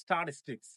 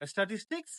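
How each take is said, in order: First: "স্ট্যাটিস্টিক্স" as sta-TIS-tiks, falling; correct pronunciation. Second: "স্ট্যাটিস্টিক্স" as es-ta-tis-tiks, rising; every t hard in "স্ট্যাটিস্টিক্স"; common mispronunciation. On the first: Teacher models "স্ট্যাটিস্টিক্স" correctly as sta-TIS-tiks. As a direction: clean st opening "স্ট্যাটিস্টিক্স", light middle t. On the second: Teacher shows learners' reading, "স্ট্যাটিস্টিক্স" mispronounced with hard t's. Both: Shown as a demonstration. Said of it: "সঠিক sound হবে".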